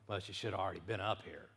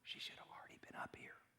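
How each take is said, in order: First: It sounds impatient and annoyed. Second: It sounds calm and reassuring.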